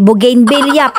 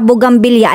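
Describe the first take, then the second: First: The word is said as bougainvillea. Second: The word is said as bugambilya. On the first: The speaker calls it right. "ang tamang pronunciation po talaga" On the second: The speaker calls it wrong. "nasanay na po ako na gayon ang pagbigkas"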